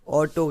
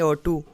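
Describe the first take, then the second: First: The word ends in an 'oh' vowel. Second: The word ends in an 'oo' vowel. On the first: The speaker calls it right. "ऑटो कह सकते हैं हम" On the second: The speaker calls it wrong. "ऐसे नहीं पढ़ेंगे"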